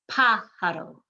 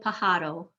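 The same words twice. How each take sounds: First: The stress falls on the first syllable. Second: The stress falls on a later syllable. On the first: The speaker calls it right. "You're emphasizing that first syllable" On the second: The speaker calls it wrong. "you do not want to say pájaro"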